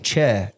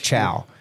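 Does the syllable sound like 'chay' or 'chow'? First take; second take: chay; chow. First: The syllable is said with a 'chay' vowel. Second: The syllable is said with a 'chow' vowel. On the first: The speaker calls it wrong. "So I'm saying che" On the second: The speaker calls it right. "and it's really chow"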